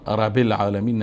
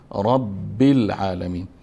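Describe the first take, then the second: First: The b sound is short and single. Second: The b sound is held and doubled. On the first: The speaker calls it wrong. "رب العالمین نمیگیم" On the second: The speaker calls it right. "ب شده داره، پس وقت شده داشت ربی ربی میخوانیم"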